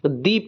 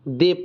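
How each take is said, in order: First: The word ends in a long 'ee' vowel. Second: The word ends in a short 'uh' vowel. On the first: The next word starts with a vowel. "कभी vowel होता है तो दी पढ़ते हैं" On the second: The next word starts with a consonant. "Consonant होता है तो यहाँ पर द पढ़ते हैं"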